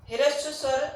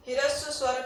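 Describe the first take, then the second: No difference in how they are said.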